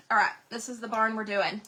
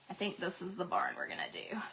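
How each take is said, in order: First: Said in the usual way. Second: Whispered to herself. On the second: Real, not acted. Deciding to herself.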